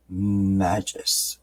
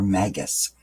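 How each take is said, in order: First: Magus with a soft g, like "MAJ-us"; Magus said "MAD-jus"; soft-g pronunciation. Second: Magus with a hard g, like "MAG-us"; hard-g pronunciation. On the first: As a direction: say the g in Magus as a j sound. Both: Shown as a demonstration. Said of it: "depending on how you wanna pronounce it".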